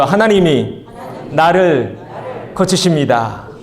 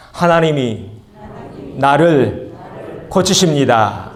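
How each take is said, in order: First: Stronger and louder, each word pushed out; louder repeat of the confession. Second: Said slowly and firmly, one beat per word; declared confession, led for the congregation to repeat. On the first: Pastor urging the church to say it once more, louder. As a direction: call it out again, bolder. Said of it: "한 번 더요". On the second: Pastor leading the congregation in a faith declaration, firm and measured. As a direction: lead the church in repeating it. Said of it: "우리 함께 따라서 합시-, 하십시다". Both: Shown as a demonstration.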